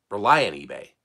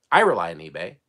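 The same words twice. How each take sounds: First: Said in the usual way. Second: I rely on eBay with the I pushed forward; stress on I. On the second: Shown as a demonstration. Reseller correcting himself, stress on I. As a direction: lean hard on I in I rely on eBay.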